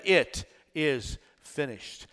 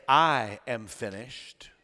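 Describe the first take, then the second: First: "It" set apart, slow and soft; stress on IT. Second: "I" set apart, slow and low; stress on I. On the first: Preacher showing what Jesus really said, stress on "It". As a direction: lean on "It", then pause before "is finished". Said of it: "He said". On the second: Preacher showing what Jesus didn't say, stress on "I". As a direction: lean on "I", then let the rest fall softly. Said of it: "he did not say". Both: Acted.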